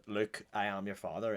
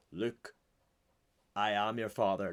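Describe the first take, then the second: First: Said in the usual way. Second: "Luke," then a long dramatic pause before "I am your father."; dramatic pause after Luke. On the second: Shown as a demonstration. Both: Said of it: "Like, dramatic pause".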